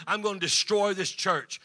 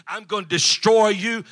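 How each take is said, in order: First: Said in the usual way. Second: Loud menacing threat, voice rising on destroy; retold threat. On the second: Rival businessman threatening the pastor, loud menacing threat. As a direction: hurl the threat at him.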